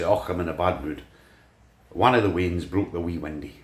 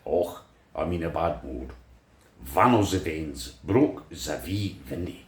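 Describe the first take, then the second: First: It is said in a plain Scottish accent. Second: It is said in a German-Scottish accent.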